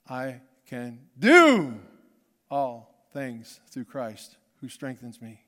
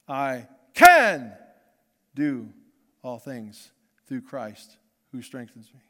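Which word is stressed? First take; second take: do; can. First: The stress falls on the word "do". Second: The stress falls on the word "can".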